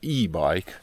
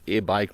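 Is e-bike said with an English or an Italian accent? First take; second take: English; Italian. First: It is said with English-style pronunciation. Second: It is said with Italian-style pronunciation. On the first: The speaker calls it right. "ma e-bike, se vuoi essere un po' inglese" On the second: The speaker calls it wrong. "non è e-bike"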